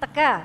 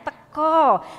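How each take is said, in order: First: The final vowel sounds like an a. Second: The final vowel sounds like an o. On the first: This is how it is read around Purwokerto. "kalau di Purwokerto ke sana tetap teka" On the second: This is how it is read in Jogja. "Kalau di Jogja bacanya teko"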